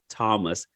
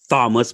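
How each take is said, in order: First: The name begins with a plain 't' sound. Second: The name begins with a 'th' sound. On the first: The speaker calls it right. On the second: The speaker calls it wrong.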